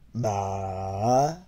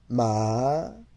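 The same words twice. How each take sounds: First: The syllable is said with the third tone. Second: The syllable is said with the second tone.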